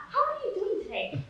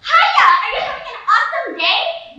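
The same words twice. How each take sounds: First: High, lighter polite inquiry; mock courteous cashier, pitched up; ordinary polite greeting. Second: High, loud, over-bright greeting; mock-cheery squeal, pitched way up; chirpy counter girl. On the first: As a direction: ask it lightly, without the big push. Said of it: "Not, "How are you doing today?". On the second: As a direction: greet like an overeager fast-food cashier. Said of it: "the girl behind the counter said".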